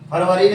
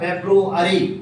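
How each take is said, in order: First: It is said as Far-va-ri, three syllables. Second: It is said as Feb-ru-a-ry, four syllables. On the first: The speaker calls it wrong. "फरवरी नहीं" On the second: The speaker calls it right. "आगे चलते लिखा फेब्रुअरी"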